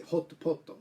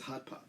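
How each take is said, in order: First: Hot poto as 'hotto potto', rounded oh vowels; hot poto said the katakana way; Japanese katakana pronunciation. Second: Hot pot with open 'ah' vowels; English hot pot, both vowels like ah; English short o. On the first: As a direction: add a 'to' ending to each word of hot poto. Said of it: "They say". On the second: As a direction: say hot pot as 'haht paht'. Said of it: "No one understands hot pot". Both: Shown as a demonstration.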